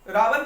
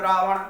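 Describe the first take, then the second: First: रावण ending in a plain dental n; everyday रावण, final ण flattened to न; casual mispronunciation. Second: रावण with a full retroflex ण at the end; careful रावण, tongue curled back for the ण; careful correct pronunciation. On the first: Teacher quoting people's faulty speech, casual mispronunciation of रावण. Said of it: "जो बोलते हैं वो गलत बोलते हैं". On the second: Teacher showing the proper word, careful correct pronunciation of रावण. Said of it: "उच्चारण जब बहुत अच्छे तरीके से करके बोलते हैं". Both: Shown as a demonstration.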